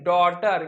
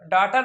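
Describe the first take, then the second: First: The first vowel is a rounded 'aw'. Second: The first vowel is an open unrounded 'aa'. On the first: The speaker calls it right. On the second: The speaker calls it wrong.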